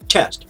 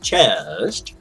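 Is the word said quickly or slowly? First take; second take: quickly; slowly. First: The word is said quickly and casually. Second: The word is said slowly and drawn out. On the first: The speaker calls it right. "you say chest, like you say hello" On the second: The speaker calls it wrong. "I speak slower on camera, so it's not chest"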